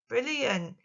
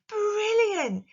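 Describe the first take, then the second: First: The word is said in a flat, dull voice. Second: The word is said in a surprised, excited voice. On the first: The speaker calls it wrong. "you wouldn't just say brilliant by going, oh, brilliant" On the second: The speaker calls it right. "You can hear the surprise and the excitement"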